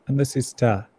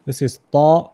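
First: "ta" with a thin, front vowel; "ta" light and open, tongue at the teeth; light Arabic ta. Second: "ta" with a heavy, dark back vowel, louder; "ta" rounded toward "taw", held long; emphatic Arabic ta. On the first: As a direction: say "ta" as the light Arabic letter tā, falling. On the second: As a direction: say "ta" as the heavy Arabic letter ṭā, drawn out. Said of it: "this, the name of this letter is ta". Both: Shown as a demonstration.

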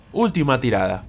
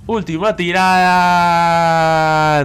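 First: Said in the usual way. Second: Raised pitch, "tirada" held extremely long; drawn-out suspense. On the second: Real, not acted. Gamer on his last draw, long suspenseful cry. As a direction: hold the vowel of "tirada" through the spin. Final spin, stretched out.

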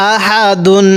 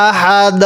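First: আহাদুন said with the nunation দুন; with full ending. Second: আহাদ cut off on দ, no ending vowel; stopped reading. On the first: Teacher showing the reading without a stop. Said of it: "দম ফালাবো তখন". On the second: Teacher showing the waqf form of আহাদুন. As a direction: stop আহাদ on a silent দ with sukun. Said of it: "আর পড়বো কেমনে?". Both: Shown as a demonstration.

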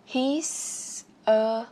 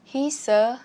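First: Said in the usual way. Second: "He's a" run together as one word; linked sounds. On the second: Shown as a demonstration. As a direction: carry the S of "He's" onto "a". ("He's a" nối âm S sang "a") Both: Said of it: "nối âm luôn".

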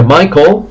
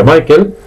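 First: "Michael" as "Mai-kol", dark ending; correct ending. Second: "Michael" as "Mai-kel", clear e; wrong ending. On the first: Teacher gives the right form, "Michael" ending in "-kol". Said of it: "Se pronuncia Michael". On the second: Teacher shows the common error, "Michael" ending in "-kel". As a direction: end "Michael" on a Spanish "-kel". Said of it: "no se pronuncia Michael". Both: Shown as a demonstration.

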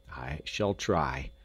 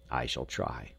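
First: Slow, lower repeat; measured, earnest resolve; deliberate. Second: Low, soft resolve; quiet, humbled promise; subdued. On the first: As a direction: say it slowly, weighing each word. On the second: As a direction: drop low and soft, almost to oneself. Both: A narrator's reading.

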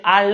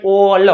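First: આલ with an open 'aa' vowel; wrong reading. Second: ઓલ with a rounded 'o', said loud; correct reading. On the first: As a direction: misread all as આલ. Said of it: "તો એને આલ ન વંચાય". (આલ એવો ખોટો ઉચ્ચાર) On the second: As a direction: give ઓલ loudly with a rounded vowel. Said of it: "શું વંચાય?". (ઓલ એવો ગોળ, ભારપૂર્વકનો ઉચ્ચાર) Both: Shown as a demonstration.

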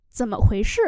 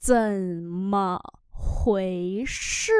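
First: Said in the usual way. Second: Low, drawn-out separate syllables; slow model reading. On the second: Shown as a demonstration. Teacher modelling "what happened" for learners, low and slow. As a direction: stretch each syllable of the question.

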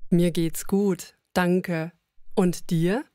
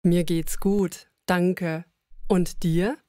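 Both takes have the same delivery.

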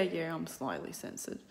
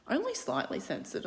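First: Said in the usual way. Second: Only lifted high; stress on Only. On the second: Real, not acted. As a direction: hit the word Only.

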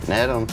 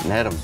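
No difference in how they are said.

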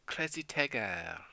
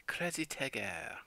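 First: Put-on French accent. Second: Slow, breathy-free French lilt; copying the French pronunciation again, slowly; French accent. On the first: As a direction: imitate the French robot voice. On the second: Retold or imitated. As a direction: say it like a Frenchman, drawn out. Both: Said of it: "A French accent".

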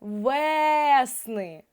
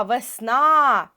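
First: ВЕСНИ with a very long stressed Е; наголос на Е. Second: ВЕСНА loud, with a long final А; наголос на А. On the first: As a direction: hold the first vowel of ВЕСНИ. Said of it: "цей звук став наголошеним". (ВЕСНИ з дуже протяжним Е) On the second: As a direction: belt out the stressed А in ВЕСНА. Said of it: "наголос на А". (ВЕСНА голосно, з протяжним наголошеним А) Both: Shown as a demonstration.

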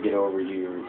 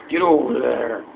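First: Said in the usual way. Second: Loud, higher yell on "Get over there"; shouted there. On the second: Shown as a demonstration. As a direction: bark the word over out loud. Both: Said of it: "Instead of".

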